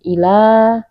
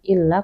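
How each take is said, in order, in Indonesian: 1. Huruf l tunggal dengan vokal yang dipanjangkan. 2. Huruf l dirangkap dan ditekan keras. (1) "dipanjangkan saja dua rakaat tanpa ditekankan" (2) "bukan illa"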